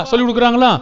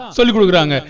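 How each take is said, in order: First: கொடுக்குறாங்களா asked with a rising end; questioning rise. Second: சொல்லி stressed, கொடுக்குறாங்க falling to a close; answering fall. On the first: Preacher quizzing the congregation, rising question. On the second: Preacher answering his own question, falling statement. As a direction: drop it down as the answer. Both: Shown as a demonstration.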